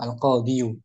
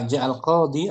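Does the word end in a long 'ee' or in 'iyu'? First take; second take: iyu; ee. First: The word ends with an added 'yu' syllable. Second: The word ends on a long 'ee' sound. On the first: "Al qadiyu berat sakil" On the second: "lebih ringan mana?"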